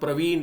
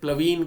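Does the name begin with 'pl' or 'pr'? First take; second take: pr; pl. First: The name begins with a 'pr' sound. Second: The name begins with an 'pl' sound. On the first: This is the name as it is properly written. The speaker calls it right. "पहले नाम प्रवीण रहता है" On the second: A child who cannot say 'r' says it this way. The speaker calls it wrong. "बच्चे क्या कहते हैं, प्लवीन कह देंगे"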